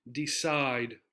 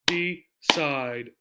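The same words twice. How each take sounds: First: Said in the usual way. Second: "D, side" said as two separate beats, D then side; split into syllables. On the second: Shown as a demonstration. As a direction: break "D, side" cleanly into its two syllables with a pause between. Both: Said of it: "we're gonna split the word like this".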